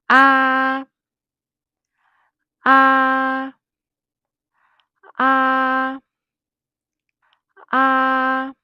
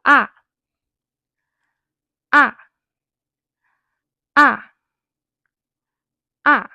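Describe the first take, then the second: First: "Ah" held high, loud and perfectly level; long, flat, high "Ah"; first tone. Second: Short, loud "Ah" falling sharply from high to low; firm falling "Ah"; fourth tone. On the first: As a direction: sing out "Ah" on one high, steady note. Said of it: "first tone is high and steady". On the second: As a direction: drop "Ah" fast and clean from the top. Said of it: "a sharp fall from high to low". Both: Shown as a demonstration.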